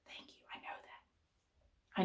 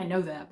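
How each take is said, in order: First: Whispered aside. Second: Said in the usual way. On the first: Retold or imitated. Answering her calm son.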